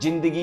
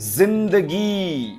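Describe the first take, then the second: First: It begins with a j sound. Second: It begins with a z sound. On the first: The speaker calls it wrong. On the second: The speaker calls it right.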